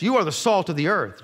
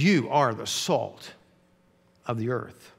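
First: "you" leaned on, said at normal pace and level; emphatic statement. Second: Very slow and softer, with "you" leaned on hard; stress on you. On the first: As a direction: state it plainly, with weight on "you". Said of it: "He just made an emphatic statement". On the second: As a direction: say it straight to the disciples, slowly and quietly, pressing "you". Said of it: "he's looking right at his disciples". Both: Shown as a demonstration.

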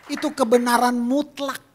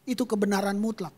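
First: "Itu kebenaran mutlak" said loud with weight on "kebenaran"; emphatic declaration. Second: Said in the usual way. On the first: Shown as a demonstration. Preacher to congregation, proclaiming absolute truth loudly.

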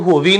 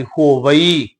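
First: ਹੋਵੀ quick, as two syllables ho-vee; shortened misreading. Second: ਹੋਵਈ as ho-va-ee with a long separate final vowel; three full syllables. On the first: Teacher shows the misreading, quick two-syllable ਹੋਵੀ. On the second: Teacher corrects a misreading, full ho-va-ee in ਹੋਵਈ. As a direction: say ਹੋਵਈ fully, not shortened to ho-vee. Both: Shown as a demonstration. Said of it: "ਇਹਨੂੰ ਹੋਵੀ ਨਹੀਂ ਪੜ੍ਹਨਾ".

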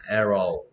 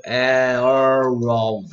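First: Said in the usual way. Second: Arrow stretched long and slow; drawn-out arrow. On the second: Shown as a demonstration. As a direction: hold out arrow slowly like a model. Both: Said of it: "화살은".

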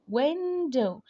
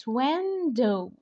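First: Window repeated a bit higher; emphatic repeat. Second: Window drawn out slowly; slow model word. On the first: (تكرار window بنبرة أعلى) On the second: (نطق window ببطء) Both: Shown as a demonstration. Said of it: "زي كلمة window".

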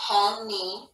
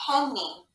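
First: PENNY in two drawn-out beats, PEN then NEE; split into syllables. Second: Said in the usual way. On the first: Shown as a demonstration. Teacher reading the last example to pupils, sounded out in parts. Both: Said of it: "let's read the word".

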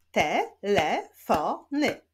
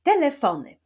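First: "Telefony" slowly split into te, le, fo, ny; syllable by syllable. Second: Said in the usual way. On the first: Shown as a demonstration. Teacher shows pupils the syllables, "Telefony" slowly split up. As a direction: clap out "Telefony" with gaps between syllables. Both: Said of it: "Wyklaszczmy sylaby w tych wyrazach".

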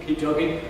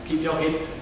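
The two takes are said the same way.

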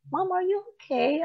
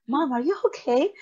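First: Put-on a gentle kid's worried ask; innocent child. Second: Put-on higher, small child's voice at the door; a kid checking on mom through the door; worried child. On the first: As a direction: kids looking up at mom, asking if she's okay. Kids' innocent faces looking at her. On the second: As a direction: kids asking their crying mom if she's okay. Kids knocking on bathroom door.

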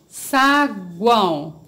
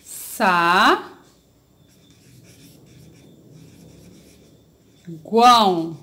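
First: SAGUÃO stretched slowly but unbroken; whole word, slowly. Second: SAGUÃO broken into SA, long pause, GUÃO; syllable by syllable. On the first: Teacher presenting a word to pupils, slow and whole. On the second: Teacher separating a word for the class, syllable by syllable. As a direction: hold "Sa", stop, then say "guão". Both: Shown as a demonstration. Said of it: "Vamos separar".

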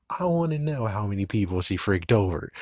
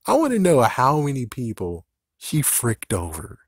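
First: Said in the usual way. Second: Emphatic. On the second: Real, not acted.

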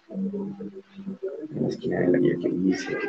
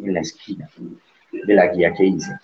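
First: Softer and slower, drawn out to a rising end; quiet slow repeat. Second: Said in the usual way. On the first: Shown as a demonstration. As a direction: repeat it gently and slowly as a reminder to yourself. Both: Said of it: "teacher repeats the phrase".

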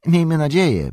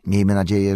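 First: High, loud, emphatic repeat; fervent innkeeper echo. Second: Said in the usual way. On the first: A narrator's reading. Innkeeper repeats Frodo's hope, fervently. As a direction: echo it anxiously, pitch up. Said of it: "powtórzył Butterbur".

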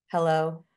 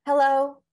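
First: Relaxed hello at natural pitch; on the out breath. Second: High, loud, tense hello; top of the breath. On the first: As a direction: release the breath, vocal cords loose. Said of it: "they sound totally different". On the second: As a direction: greet from the top of a held breath. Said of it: "So here's my difference". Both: Shown as a demonstration.

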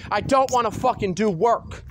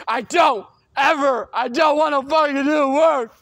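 First: Said in the usual way. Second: Louder refusal, building heat; angry shout. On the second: Real, not acted. Refusing to do schoolwork, angry louder shout. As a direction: yell the refusal in real anger.

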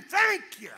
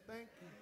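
First: "Thank you." called out high and loud; shouted thanks. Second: Hushed, barely voiced "Thank you."; soft thanks. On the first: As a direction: proclaim "Thank you." to the room. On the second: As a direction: drop to a near-whisper "Thank you.". Soft thank-you after loud exhortation. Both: Shown as a demonstration.

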